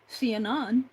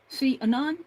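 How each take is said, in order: No difference in how they are said.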